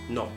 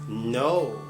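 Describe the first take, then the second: First: The word is said quickly and cut short. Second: The word is drawn out with a long vowel. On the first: The speaker calls it wrong. "Turkish people" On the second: The speaker calls it right. "They even pronounce the word like this"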